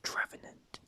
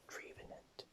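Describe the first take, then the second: First: The first syllable sounds like 'trev'. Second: The first syllable sounds like 'tree'. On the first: The speaker calls it right. "But actually it's Trevenant" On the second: The speaker calls it wrong. "because it's a tree, so Trevenant"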